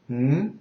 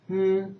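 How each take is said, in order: First: The hum follows the second tone. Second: The hum follows the first tone. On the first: "the second is" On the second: "the first intonation is"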